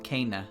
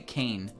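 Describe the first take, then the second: First: The name is said as two syllables. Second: The name is said as one syllable. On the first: The speaker calls it right. "There's two syllables in there" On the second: The speaker calls it wrong. "I always say Kane"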